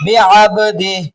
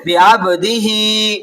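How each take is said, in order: First: बिअब्दिही ending on a still "h", no vowel after; बिअब्दिही with final "hee" reduced to "h"; pausal sakin ending. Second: बिअब्दिही slow, last "hee" drawn out; बिअब्दिही recited in full to a long "-hee"; full vowel ending. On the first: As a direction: recite बिअब्दिही as "bi-abdih" at a stop. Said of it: "हालत वक्त में उसको साकिन कर देंगे". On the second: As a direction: hold the final vowel of बिअब्दिही. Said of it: "खड़ी देर है". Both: Shown as a demonstration.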